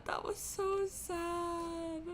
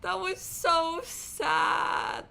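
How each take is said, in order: First: Slow, higher, softer through tears; quiet crying. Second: Slow, higher, sobbing words; crying. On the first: Streamer repeats it to chat, softer and tearful. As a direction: let it fade into a sob. Crying reaction after the scene. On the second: Streamer sobs to chat over the scene, slow and higher. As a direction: drag it out through tears. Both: Real, not acted.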